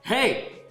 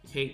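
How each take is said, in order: First: It is said in an angry, forceful tone. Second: It is said in a calm, even tone. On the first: Patience has run out after repeated warnings. "eventually you're gonna get mad and be like" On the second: A gentle first warning. "you might have even said it calmly before"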